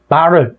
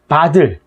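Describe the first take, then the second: First: The middle consonant sounds like an r. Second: The middle consonant sounds like a d. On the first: "바를 뭐 이런 식으로 발음하는 경우도 되게 많은데" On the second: "바를 뭐 이런 식으로 발음하는 경우도 되게 많은데"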